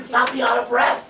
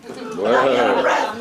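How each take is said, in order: First: Said in the usual way. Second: Slow, much lower, laughing mock take; lower mock repeat. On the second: To the seminar crowd about stairs, slow low mock. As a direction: drop low and drag it out with a laugh.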